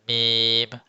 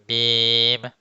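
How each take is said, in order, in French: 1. Il se dit avec le nez pincé fermé. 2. Il se dit avec le nez pincé fermé.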